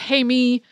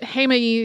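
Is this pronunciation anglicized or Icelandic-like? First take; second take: anglicized; Icelandic-like. First: It is pronounced in an anglicized, non-Icelandic way. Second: It is pronounced close to the Icelandic way. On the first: This is how foreign footage says it. The speaker calls it wrong. "every piece of non-Icelandic video footage I have seen about this eruption pronounces it in some other way" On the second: This is how locals say it. The speaker calls it right. "closest to how I've heard people actually pronouncing it while I was in Iceland"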